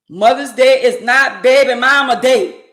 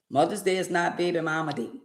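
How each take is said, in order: First: It is said loudly. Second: It is said at normal volume.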